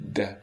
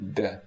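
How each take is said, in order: Both takes have the same delivery.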